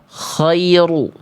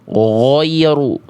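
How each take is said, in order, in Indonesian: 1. Bunyi pertamanya kh yang serak. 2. Kata ini diucapkan dengan bibir monyong. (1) "berubah jadi huruf kho" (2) "dibaca monyong"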